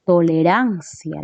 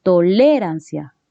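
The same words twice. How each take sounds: First: "Tolerancia" slowly, with a long stressed RAN; correctly stressed toleRANcia, said slowly. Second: "tolerancia" stressed on LE; "tolerancia" misaccented as toLÉrancia; wrong second-syllable stress. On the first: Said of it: "la mayor fuerza de voz se ubica aquí". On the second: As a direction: lean hard on the LE of "tolerancia". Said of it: "tampoco dices tolerancia". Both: Shown as a demonstration.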